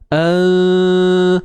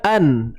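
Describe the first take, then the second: First: The n sound is hidden in the nose. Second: The n sound is clearly pronounced. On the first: "So kita sorokkan" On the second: "Asalnya an"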